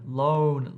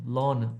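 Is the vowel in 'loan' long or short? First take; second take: long; short. First: The O vowel is long and gliding. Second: The O vowel is short and clipped. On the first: The speaker calls it right. "try to extend that O sound out" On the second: The speaker calls it wrong. "often it can sound like lon"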